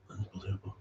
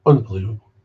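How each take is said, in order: First: Soft muttered repeat. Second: Louder exasperated exclamation; loud disbelief. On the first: Muttering to himself about sponsors, soft. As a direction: say it under your breath. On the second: Exasperated at sponsors, louder. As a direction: throw it out in disbelief. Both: Real, not acted.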